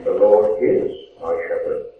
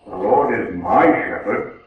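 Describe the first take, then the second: First: "Lord" leaned on, the rest falling away; stress on Lord. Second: "my" leaned on, a possessive claim; weight the word "my" as if claiming Him; stress on my. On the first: Preacher contrasting the second reading for the congregation, stress on "Lord". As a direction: put the weight on "Lord", an accepting reading. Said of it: "which makes it determined that I accept the Lord". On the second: Preacher demonstrating a reading to the congregation, stress on "my". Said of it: "in which case I am claiming the Lord". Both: Shown as a demonstration.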